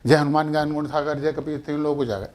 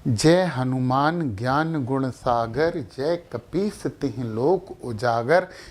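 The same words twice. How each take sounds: First: It is mumbled carelessly, not clearly. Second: It is recited clearly and aloud.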